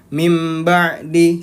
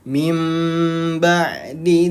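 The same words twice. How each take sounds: First: The m sound is held for one beat. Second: The m sound is held for two beats. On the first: The speaker calls it wrong. "Satu ketukan" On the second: The speaker calls it right. "dua ketukan"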